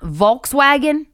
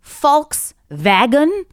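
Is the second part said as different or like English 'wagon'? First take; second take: wagon; different. First: The second part sounds like English 'wagon'. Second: The second part does not sound like 'wagon'. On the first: The speaker calls it wrong. "It's not Volkswagen. ... it's a wagon and it's got all my Volks in it" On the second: The speaker calls it right. "That's how you're supposed to say it"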